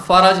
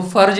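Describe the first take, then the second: First: फरज in two syllables, fa-raj; correct reading फरज. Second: फर्ज as one syllable, no vowel after the r; wrong reading फर्ज. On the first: Preacher correcting how listeners read the verse, फरज as fa-raj. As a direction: say फरज with a short vowel after the r. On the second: Preacher warning listeners off a misreading, फर्ज in one syllable. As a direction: say फर्ज with r and j run together. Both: Shown as a demonstration. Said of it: "इसको फर्ज नहीं पढ़ना".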